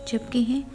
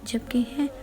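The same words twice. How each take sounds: The two takes are said the same way.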